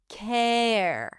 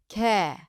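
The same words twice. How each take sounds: First: The word ends with a light R sound. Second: The word ends on the vowel, no R. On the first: "then lift it up for the R at the end" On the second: "it's going to work perfectly fine without the R"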